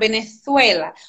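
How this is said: The z sounds like English th. This is how it is said in Spain. "eles falam Venezuela. O Z, ele é bem Venezuela"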